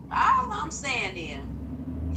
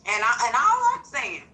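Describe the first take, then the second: First: Put-on slow, drawn-out old lady voice. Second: Said in the usual way. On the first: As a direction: drag it out like a preachy grandma. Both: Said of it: "put my old lady voice on for this".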